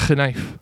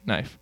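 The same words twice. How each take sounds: First: "knife" with the K sounded, k-nife; old pronunciation. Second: Said in the usual way. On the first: Shown as a demonstration. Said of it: "we don't pronounce it knife". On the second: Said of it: "We just say knife".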